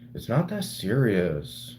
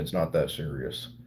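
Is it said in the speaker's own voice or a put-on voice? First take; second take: put-on voice; own voice. First: It is said in a put-on imitating voice. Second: It is said in the speaker's own voice.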